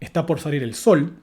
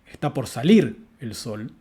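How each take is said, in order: First: The strongest stress falls on the word sol. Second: The strongest stress falls on the word salir. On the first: This is the neutral, default way to say it. "el acento nuclear está, está cayendo sobre la palabra sol" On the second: The act of rising is singled out for emphasis. "estamos asignando un énfasis a la palabra salir"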